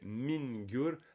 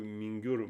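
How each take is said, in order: First: The first syllable is heavily emphasized and drawn out. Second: The first syllable is said lightly, without emphasis. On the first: The speaker calls it wrong. "on insisterait sur le fait de min du genre maïn" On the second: The speaker calls it right. "c'est plutôt mingur, mingur, c'est léger"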